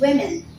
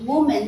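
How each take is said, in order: First: It is said with the vowels of wimmin. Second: It is said with the vowels of woman. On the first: The speaker calls it right. "It's women" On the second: The speaker calls it wrong. "We don't pronounce it as woman. No"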